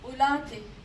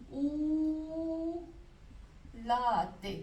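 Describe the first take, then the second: First: The first vowel is short and clipped. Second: The first vowel is drawn out long. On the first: The speaker calls it right. "हम पढ़ेंगे" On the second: The speaker calls it wrong. "मैं गलत पढ़ रही हूँ"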